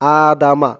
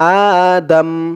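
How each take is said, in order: First: The word ends with a vowel after m. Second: The word ends on the consonant m. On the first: The reader continues without stopping. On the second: The reader stops on this word.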